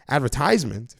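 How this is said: It is said in an American accent.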